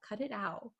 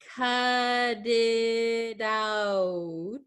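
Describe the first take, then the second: First: The T sounds are crisp and fully pronounced. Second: The T sounds are soft, like a D. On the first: The speaker calls it wrong. "That is that is incorrect" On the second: The speaker calls it right. "it's going to sound like a D sound"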